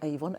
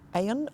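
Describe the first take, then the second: First: The middle 'v' sound is clearly pronounced. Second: The middle 'v' sound is dropped entirely. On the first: This follows the written spelling. The speaker calls it wrong. "it's spelt, I should say, the River Avon" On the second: This is how the name is actually said. The speaker calls it right. "but it's pronounced Aon or something like that"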